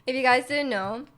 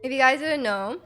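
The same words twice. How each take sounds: The two takes are said the same way.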